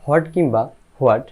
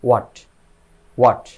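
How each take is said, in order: First: হট and হোয়াট opened with an audible h; wrong pronunciation. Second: হোয়াট said as "wat", no h; correct pronunciation. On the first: Teacher rejects both for learners, h-sounded হট and হোয়াট. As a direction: say হোয়াট as "hwat", h before the w. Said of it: "কোনোটাই সঠিক নয়". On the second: Teacher models it for learners, h-less "wat" for হোয়াট. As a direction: start হোয়াট straight on the w, one short syllable. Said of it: "এটা সঠিক উচ্চারণ হচ্ছে". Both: Shown as a demonstration.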